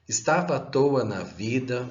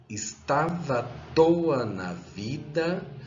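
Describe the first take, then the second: First: The line is read at a normal, quicker pace. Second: The line is read more slowly, with rhythm.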